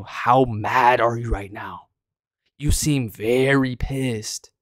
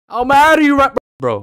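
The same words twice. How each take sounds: First: Slow mocking taunt. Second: Mocking shout. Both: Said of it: "I was exaggerating a little bit for a video".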